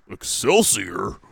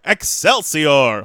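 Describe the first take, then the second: First: Lower, slow, puzzled echo; Hulk Hogan. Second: Loud, slow, drawn-out catchphrase; Stan Lee. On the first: Wrestler echoing the legend's catchphrase, puzzled impersonation. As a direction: question the catchphrase like a confused wrestler. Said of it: "Hulk Hogan goes". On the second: Comic-book legend signing off the bit, hammed-up triumphant cry. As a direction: proclaim it like a triumphant showman. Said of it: "Stan Lee goes". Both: Retold or imitated.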